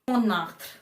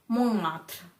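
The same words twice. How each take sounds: No difference in how they are said.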